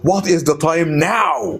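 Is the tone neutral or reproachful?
reproachful. It is said in a reproachful, sarcastic tone. The speaker is not really asking for the time. "the second one, no, I'm not asking for time"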